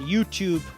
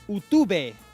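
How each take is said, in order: First: It is said with an English pronunciation. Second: It is said with a Catalan pronunciation. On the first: The speaker calls it right. "the right answer is" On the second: The speaker calls it wrong. "Catalan pronunciation of English words"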